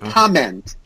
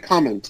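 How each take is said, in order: First: The second syllable has an 'eh' vowel. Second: The second syllable has an 'ih' vowel, like 'mint'. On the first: The speaker calls it right. "but it's a comment. Eh" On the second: The speaker calls it wrong. "You were saying mint comment, like she made a comment"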